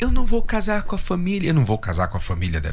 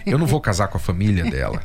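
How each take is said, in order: First: It is said in a put-on female voice. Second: It is said in his natural voice. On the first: The speaker calls it wrong. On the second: The speaker calls it right.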